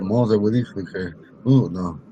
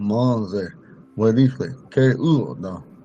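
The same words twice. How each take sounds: First: The words are run together without pauses. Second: The words are separated by pauses between them. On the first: "normally when we're talking in Poncan sentences, they're together" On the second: "since we separated them"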